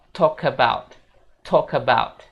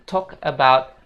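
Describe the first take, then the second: First: "talk about" slow, as tokabaut; linked talk about. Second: "talk about" slow, words apart; separated talk about. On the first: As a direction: slide the words together. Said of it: "sambungin dua kata ini". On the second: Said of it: "bukan talk about". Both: Shown as a demonstration.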